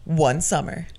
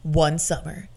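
First: Whispered trailer tease; movie announcer voice. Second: Movie announcer voice. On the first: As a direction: breathe it like a trailer opening. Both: Shown as a demonstration. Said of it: "It's my movie announcer voice".

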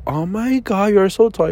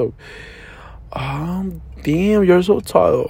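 First: Mock-gushing girl, lifted "Oh my God". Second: "Oh" whispered, "damn, you're so tall" drawn out slowly; hushed slow echo. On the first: Man retelling a girl's compliment, light mock gush. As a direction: quote her surprised compliment lightly. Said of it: "Y luego de que". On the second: Retold or imitated. Man mockingly echoing the girl's compliment, hushed and slow. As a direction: breathe the "Oh", then stretch the rest.

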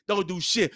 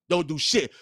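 Both takes have the same delivery.

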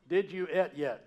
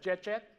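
First: "et" for "eat", each word spelled out; Southern "et". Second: "Chet Chet" run together in a Southern accent, rising; Southern English accent. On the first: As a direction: say "et" with a short e, words kept apart. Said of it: "past tense in Southern English is et". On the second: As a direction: squash it into two Southern syllables, "Chet Chet". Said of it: "in Southern English is et". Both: Shown as a demonstration.

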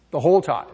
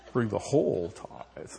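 First: Said in the usual way. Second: Whole said low and slow, drawn out; slow low emphasis. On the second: Shown as a demonstration. Preacher repeating the command softly, low and slow.

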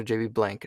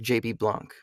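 First: "Blanc" said like the word "blank"; flat English a in "Blanc", as in "bank"; English-style pronunciation. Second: "Blanc" with an open ah, like "blahnk"; French-style pronunciation. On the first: Unsure of the surname, "Blanc" said as "blank". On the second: Voice actor naming someone he admires, "Blanc" said as "blahnk". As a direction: say "Blanc" to rhyme loosely with "honk". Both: Shown as a demonstration. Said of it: "I don't know how you pronounce his last name".

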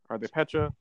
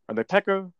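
First: "Pecha" as PETCH-uh, offered as a question. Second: "Pekka" as PEK-uh, a higher questioning try. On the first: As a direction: say "Pecha" with a ch as in peach. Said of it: "I'm gonna say Pecha for now". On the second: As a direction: say "Pekka" with a hard k in the middle. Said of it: "offending some people by saying Pekka". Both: Shown as a demonstration.

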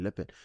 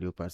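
First: "leopard" as LEP-ed, two syllables; standard pronunciation of leopard. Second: "leopard" as LEE-oh-pad, three syllables; spelling pronunciation of leopard. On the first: Teacher noting what others call it, "leopard" as LEP-ed. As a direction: say "leopard" with a short E and silent O. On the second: Teacher noting what some people call it, "leopard" as LEE-oh-pad. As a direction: say "leopard" with a long E and sounded O. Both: Shown as a demonstration. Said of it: "some people call it leopard".

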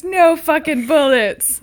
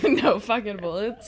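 First: Slow, louder grumble; a hint of a grumpy ghost; mock-grumpy complaint; angry grumbling. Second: Slow laughing grumble; lightly voiced grouch; mock-grumpy, laughing; angry grumbling. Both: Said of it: "Angry grumbling".

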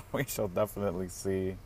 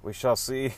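First: Laughing. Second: Mock ominous. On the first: Real, not acted. Laughing repeat of phrase. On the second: Playful ominous pronouncement.

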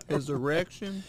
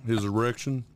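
First: Put-on higher-pitched child's question; mock-innocent questioning; puzzled kid. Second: Said in the usual way. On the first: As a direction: echo it back as a baffled kid. Kid questions dad, acted skit.

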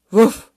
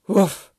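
First: Very loud, higher, rising woof; sudden upturned woof; questioning dog bark. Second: Short, loud woof, falling; single dropping woof; apologetic dog bark. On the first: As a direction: bark it out as a query. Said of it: "Warum denn so eilig". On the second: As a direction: bark a brief sorry. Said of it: "es tut mir trotzdem leid". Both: A narrator's reading.

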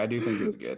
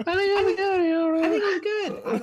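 First: Said in the usual way. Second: Drawn-out, loud falsetto squeal; exaggerated sky-high squeak, played for laughs; high pitch change. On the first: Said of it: "it was a pitch change there". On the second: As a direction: stretch it out in an absurdly high, loud voice. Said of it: "That tone change".

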